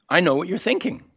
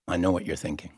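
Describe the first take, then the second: First: High-pitched, lilting claim rising at the end; high and knowing, lifted on THINKING; knowing tease. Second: Low, soft knowing remark; quiet, low-pitched knowing murmur; confiding aside. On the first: Teasing line repeated two ways. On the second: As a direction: drop the voice and confide it. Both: Acted.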